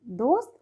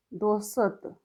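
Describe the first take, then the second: First: Said in the usual way. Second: दोस्त in two syllables, "do-sat"; misspelt reading. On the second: Shown as a demonstration. Teacher reads the wrong column, दोस्त broken into "do-sat". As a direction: add a vowel between s and t in दोस्त. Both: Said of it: "सही और गलत".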